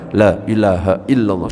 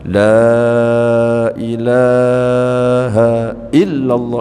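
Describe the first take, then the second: First: The phrase is said quickly. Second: The phrase is drawn out slowly.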